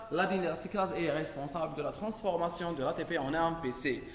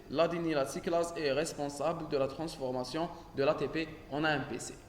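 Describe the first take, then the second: Both takes have the same delivery.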